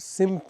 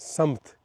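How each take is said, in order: First: The first vowel sounds like 'i'. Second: The first vowel sounds like 'a'. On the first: The speaker calls it wrong. "सिमत नहीं" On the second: The speaker calls it right. "सिमत को दुरुस्त कर लें समत"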